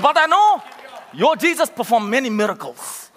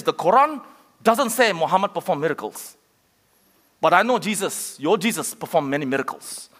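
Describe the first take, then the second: First: Emphatic retold quote. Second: Lightly imitated Arabic accent, lower toward the end; attempted Arabic accent. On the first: Preacher repeating the taxi driver's words, emphatic retold quote. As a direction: retell it with more force, punching the opening. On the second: Preacher quoting a Muslim taxi driver, attempted Arabic accent. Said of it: "That was my best Arabic accent".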